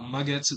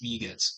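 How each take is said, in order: First: The first vowel sounds like 'ah'. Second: The first vowel sounds like 'ee'. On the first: The speaker calls it wrong. "It's not Magetsu" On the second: The speaker calls it right. "it's Migetsu"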